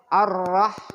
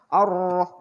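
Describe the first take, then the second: First: The vowel is open with the mouth wide, like a. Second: The vowel is rounded with pursed lips, like o. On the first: The speaker calls it right. "Sambil mangap" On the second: The speaker calls it wrong. "ini bukan monyong ya, bukan Ar-Rah, bukan begitu"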